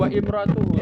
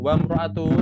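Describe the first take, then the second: First: An extra vowel starts the second word. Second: The second word joins straight on, no vowel. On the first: The speaker calls it wrong. "bukan wa imra'atuhu" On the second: The speaker calls it right. "tapi langsung wa mra'atuhu"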